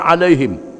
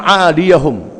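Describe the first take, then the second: First: The word is read with a final 'him'. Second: The word is read with a final 'hum'. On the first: The speaker calls it wrong. "bukannya alaihim" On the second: The speaker calls it right. "Bacaannya aliyahum"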